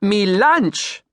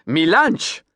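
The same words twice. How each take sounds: First: "Mi lunch!" louder, lunch falling hard; emphatic Creole accent. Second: Insistent Creole "Mi lunch!" with lunch said like launch; Creole accent. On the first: Captain slapping his boat, emphatic Creole accent. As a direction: slap it out, proud Creole captain. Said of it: "He slapped a hand on the side". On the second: Captain insisting on his boat's name, Creole accent. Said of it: "his Creole accent". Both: Acted.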